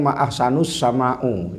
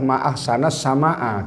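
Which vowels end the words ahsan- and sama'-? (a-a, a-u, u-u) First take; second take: u-u; a-a. First: Ahsan- ends in u, sama'- ends in u. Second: Ahsan- ends in a, sama'- ends in a. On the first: The speaker calls it wrong. "Yang kedua dia mengatakan" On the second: The speaker calls it right. "Yang betul adalah"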